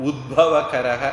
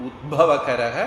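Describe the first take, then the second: No difference in how they are said.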